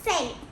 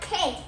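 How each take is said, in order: First: The word begins with a soft S sound. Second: The word begins with a hard K sound. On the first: The speaker calls it right. "but it's scent" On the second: The speaker calls it wrong. "don't don't say like can't"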